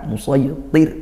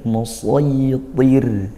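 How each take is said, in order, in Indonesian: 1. R di akhir ditekan dan dipotong tiba-tiba. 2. R di akhir mengalir sedikit dan ringan. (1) "sampai ditekan musaytir, dihentak, tidak" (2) "dialirkan sedikit"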